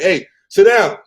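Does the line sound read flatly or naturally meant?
naturally meant. It sounds natural, like a genuine spoken thought. The words come across as the speaker's own thought. The speaker calls it right. "I'm gonna say"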